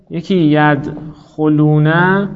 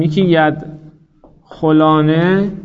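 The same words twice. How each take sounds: First: ید خلونه drawn out very slowly, with a long "u" before the "-ne"; example form slowly. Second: ید خلانه drawn out very slowly, with a clear open "a" before the "-ne"; example form slowly. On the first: Teacher slowly sounding out ید خلونه for students, very slow and deliberate. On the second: Teacher slowly sounding out ید خلانه for students, very slow and deliberate. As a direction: spell out ید خلانه syllable by syllable, very slowly, stressing the "a". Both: Shown as a demonstration. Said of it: "من سه تا صیغه مثال بزنم".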